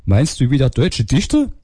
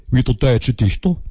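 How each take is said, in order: First: Said in the usual way. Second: Put-on Saxon phone girl, higher and lilting; Saxon accent. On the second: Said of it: "kommt aus Sachsen".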